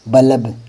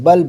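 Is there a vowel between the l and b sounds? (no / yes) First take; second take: yes; no. First: A full vowel is heard between l and b. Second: The l and b run together without a vowel. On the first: The speaker calls it wrong. "जैसे इसको बोलोगे तो बल्ब, जैसे तलब" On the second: The speaker calls it right. "बल्ब होता है"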